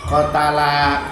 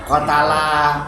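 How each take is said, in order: The two takes are said the same way.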